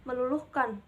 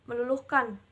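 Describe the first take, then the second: The two takes are said the same way.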